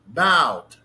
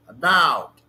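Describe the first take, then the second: First: The stress is on the second syllable. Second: The stress is on the second syllable.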